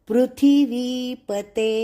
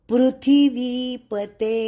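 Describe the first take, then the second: No difference in how they are said.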